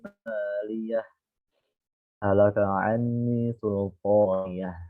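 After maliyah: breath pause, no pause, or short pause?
breath pause. It stops after maliyah to take a breath. "Kalau wakof, antum wajib mengambil nafas"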